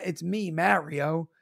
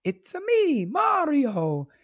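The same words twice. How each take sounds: First: "Mario" in his usual voice, "marry" vowel; own plain pronunciation. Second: High video-game catchphrase impression; sing-song Italian plumber, "ah" in the name; Mario. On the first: Retold or imitated. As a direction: slowly say "Mario" as MARE-ee-oh. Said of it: "I guess it's not". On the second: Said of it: "He goes".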